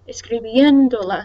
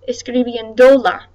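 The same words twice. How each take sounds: First: The stress is on the 'bien' syllable. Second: The stress is not on the 'bien' syllable. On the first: The speaker calls it right. "the stress above the E" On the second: The speaker calls it wrong. "If I didn't have the accent mark, it would sound like this"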